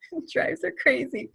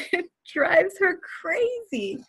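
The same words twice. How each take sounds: First: Said in the usual way. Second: Higher, slow, laughing through the words; laughing at how daughter reacts. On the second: Real, not acted. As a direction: giggle it out slowly.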